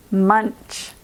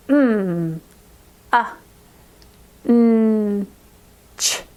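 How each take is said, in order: First: Said in the usual way. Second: Munch broken into M, a, n, ch; segmented M, a, n, ch with short pauses; sounds taken apart. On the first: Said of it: "let's do the word munch". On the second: Shown as a demonstration. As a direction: isolate each sound, humming M and n. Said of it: "let's try taking apart a word".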